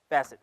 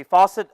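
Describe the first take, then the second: First: Facet said FASS-it, short a, corrected. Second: Faucet said like the tap, FAW-set; the slip faucet, said as the water tap; wrong word faucet. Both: Shown as a demonstration. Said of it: "sorry, facet".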